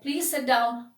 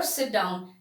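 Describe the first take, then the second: First: Mild, courteous invitation to sit; polite request. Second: Low-pitched, softer bare order; plain command. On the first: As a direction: politely ask someone to sit. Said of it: "your way of pitch of telling". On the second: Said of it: "has changed the meaning". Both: Shown as a demonstration.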